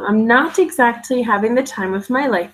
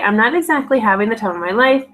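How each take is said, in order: First: Every sound is pronounced fully and carefully. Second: Word endings are cut and T sounds change. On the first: "by pronouncing everything" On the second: "in Wisconsin accent"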